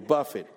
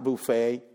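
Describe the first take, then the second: First: It is said like the verb meaning to strike. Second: It is said like the word for a food spread. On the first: A slap across the face. The speaker calls it right. "to buffet, to slap you across the face" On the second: A meal laid out for guests. The speaker calls it wrong. "not buffet"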